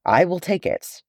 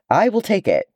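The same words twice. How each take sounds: First: "I will take it" steadier, weight on "take"; resolute repeat. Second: "I will take it" high and firm, stress on "will"; ringing clear declaration. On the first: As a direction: restate it calmly, leaning on "take". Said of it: "Frodo was walking forward". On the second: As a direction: cut through the din with "will". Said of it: "The clear voice rang over the clamor". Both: A narrator's reading.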